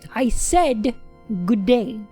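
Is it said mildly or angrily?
angrily. It is said with stronger anger.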